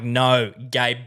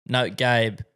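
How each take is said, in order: First: GABE with a hard, popped final B; over-pronounced name. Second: Said in the usual way. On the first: Retold or imitated. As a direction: say "Gabe" with the closing B released as an extra "buh". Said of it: "I have to pronounce it so hard". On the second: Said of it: "have to pronounce it so hard".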